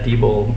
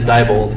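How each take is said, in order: First: The first syllable sounds like 'dee'. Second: The first syllable sounds like 'die'. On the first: "our favorite friend and comrade" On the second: "or as we hoped we could pronounce it"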